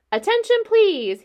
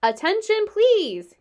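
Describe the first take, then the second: First: High, loud and firm, calling the whole barn. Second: High, loud repeated call. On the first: Wilbur calling out to the barn, loud and firm. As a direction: announce it firmly to everyone. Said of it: "he said in a loud, firm voice". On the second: Wilbur repeating his call to the barn, loud. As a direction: call it out again, loudly. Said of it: "I will repeat the message". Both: A narrator's reading.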